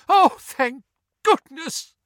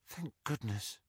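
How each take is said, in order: First: High, loud, slow tearful outburst; sobbing relief. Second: Soft, breathy whisper; whispered relief. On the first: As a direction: sob it out with huge relief. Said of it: "sobbed Missus Weasley". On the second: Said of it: "Ginny whispered". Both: A narrator's reading.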